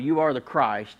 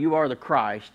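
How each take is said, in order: First: It is said flatly, as a mere title. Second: The same.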